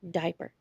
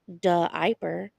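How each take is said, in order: First: The word is said normally without an added vowel. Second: An uh vowel is inserted after the d. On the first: The speaker calls it right. "We say diaper" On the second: The speaker calls it wrong. "we don't say duh iper"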